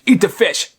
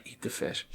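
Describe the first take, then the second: First: Stern mom order. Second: "Eat the fish." whispered under the breath with no voice; whispered threat. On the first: Mom forcing son to eat fish. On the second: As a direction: whisper it so the guests can't hear. Mom hissing at son secretly. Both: Acted.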